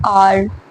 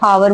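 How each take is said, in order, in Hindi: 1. शब्द स्वर से शुरू होता है, कोई h ध्वनि नहीं है। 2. शब्द की शुरुआत में एक सुनाई देने वाली h ध्वनि है। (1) "आर बोलते हैं उसको" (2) "हावर सही प्रोनाउंसिएशन नहीं होती है"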